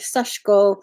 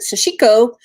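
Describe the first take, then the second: First: The vowel after 'sh' is nearly silent. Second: The vowel after 'sh' is fully voiced. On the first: The speaker calls it right. "with a very short version" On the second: The speaker calls it wrong. "A lot of people in America will pronounce it"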